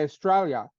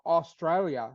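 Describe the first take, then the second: First: It is said in an Australian accent, vowel dropped. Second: It is said in an American accent, vowel kept. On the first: "We say Australia, Like we lose the U when we say it" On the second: "whereas you guys go Australia"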